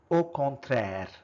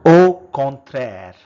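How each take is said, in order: First: Said in the usual way. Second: First take, projected clearly for the class; loud model word. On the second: Shown as a demonstration. Teacher modelling a French word for learners, loud and clear. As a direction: call out the French word loudly.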